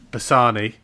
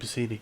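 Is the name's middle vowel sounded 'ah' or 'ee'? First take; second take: ah; ee. First: The middle vowel sounds like 'ah'. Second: The middle vowel sounds like 'ee'. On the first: The speaker calls it right. "I said it right this time" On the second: The speaker calls it wrong. "it sounds easier saying Bassini"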